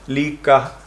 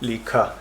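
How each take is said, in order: First: The k is said without a breath of aspiration. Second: The k is followed by a strong breath of aspiration. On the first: This is how most speakers say it. "the usual lack of such aspiration. So most people would say" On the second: This marks the speaker as from the north. "In the north they say"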